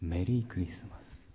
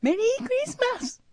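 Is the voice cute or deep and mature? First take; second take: deep and mature; cute. First: It is said in a mature, handsome-man voice. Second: It is said in a put-on cute voice.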